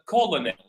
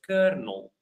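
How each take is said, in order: First: It is said with three syllables, ko-lo-nel. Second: It is said with two syllables, like kernel. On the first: The speaker calls it wrong. "I would read it uh, colonel, colonel, like it's pronounced in French" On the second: The speaker calls it right. "but actually this word is read is pronounced kernel"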